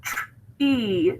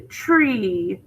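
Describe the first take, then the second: First: "tr-, E" as blend TR, pause, long EE; sounded out. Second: Said in the usual way. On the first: Shown as a demonstration. Teacher breaking down tree, "tr-, E" sounded out in two parts. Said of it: "So tree". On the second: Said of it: "one syllable".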